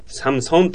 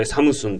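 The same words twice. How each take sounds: First: "サムソン" with an open o in the last syllable; "サムソン" as intended in Korean, o not u; Korean o reading. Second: "サムスン" with u in the last syllable; "サムスン" read by the letter u; Japanese u reading. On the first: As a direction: say "サムソン" as samu-son. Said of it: "韓国語としては". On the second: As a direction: say "サムスン" as samusun. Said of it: "ウーの音だと思って我々". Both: Shown as a demonstration.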